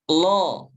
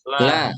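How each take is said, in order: First: The L is thick, with a dark O-like vowel. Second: The L is thin, with a clear A vowel. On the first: The speaker calls it wrong. "Kalau saya baca begini betul apa salah?" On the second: The speaker calls it right. "yang betul bagaimana"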